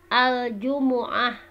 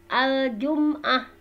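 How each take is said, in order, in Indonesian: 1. Huruf m diikuti vokal u. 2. Huruf m tidak diikuti vokal. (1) "ada yang didomahkan ya mimnya ya" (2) "Ada juga yang disukunkan mimnya"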